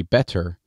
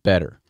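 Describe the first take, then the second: First: "better" with a real T sound; correct T demo. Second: "better" as "bedder"; casual Midwestern "bedder". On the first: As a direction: pronounce the middle of "better" with a T. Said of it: "When it should be better". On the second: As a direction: turn the T of "better" into a D. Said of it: "B E D E R is how I pronounce it". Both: Shown as a demonstration.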